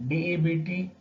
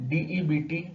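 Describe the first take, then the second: The two takes are said the same way.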